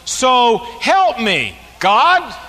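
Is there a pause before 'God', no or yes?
yes. It pauses before God, calling on him.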